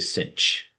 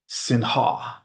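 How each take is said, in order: First: The word ends with a 'ch' sound. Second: The word ends with a breathy 'h' sound. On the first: "we normally just would say cinch" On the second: "instead of saying Sinha"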